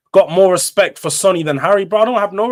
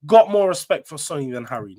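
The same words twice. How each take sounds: First: Raised, emphatic fan declaration; loud declaration. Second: Said in the usual way. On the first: Real, not acted. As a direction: declare it loudly with a rising push on "got". Passionate fan declaring loyalty.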